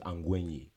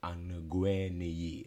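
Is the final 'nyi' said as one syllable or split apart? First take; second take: one syllable; split apart. First: The final 'nyi' is said as one syllable. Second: The final 'nyi' is split into separate sounds. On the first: The speaker calls it right. "It's one syllable" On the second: The speaker calls it wrong. "people say Angwenyi. Like it's, like you don't pronounce every letter"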